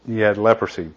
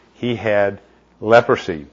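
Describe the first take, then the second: First: Had pressed firmly, leprosy falling away; stress on had. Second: Leprosy drawn out slow with a falling close; slow weight on leprosy. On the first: Preacher repeating the point, pressing on had. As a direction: lean on had to confirm it. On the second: Preacher revealing the flaw, slow stress on leprosy. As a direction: land the word leprosy slowly and let it drop. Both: Shown as a demonstration.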